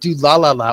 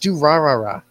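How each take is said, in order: First: The repeated consonants sound almost like an l. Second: The repeated consonants sound like a plain r. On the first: The speaker calls it wrong. "You say it like do-la-la-la, almost" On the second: The speaker calls it right. "Just do-ra-ra-ra"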